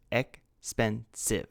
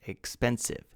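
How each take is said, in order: First: "expensive" drawn out slowly, each of its three syllables separate. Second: Said in the usual way. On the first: Shown as a demonstration. Teacher counting syllables for students, spoken slowly. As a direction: stretch "expensive" so all three syllables are heard. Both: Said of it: "three syllables".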